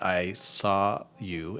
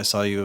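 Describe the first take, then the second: First: It is spoken slowly and clearly. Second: It is rushed and mumbled with hesitations. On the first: The speaker calls it right. "you have to kind of pace yourself" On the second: The speaker calls it wrong. "They mumble it, they fumble their words"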